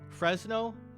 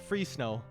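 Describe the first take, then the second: First: The first syllable is said as 'fres'. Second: The first syllable is said as 'free'.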